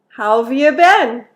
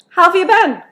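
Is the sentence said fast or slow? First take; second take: slow; fast. First: The sentence is said slowly and carefully. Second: The sentence is said quickly, with how have reduced. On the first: "two times slow" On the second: "two times fast"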